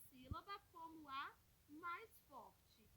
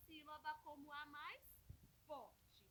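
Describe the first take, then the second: No difference in how they are said.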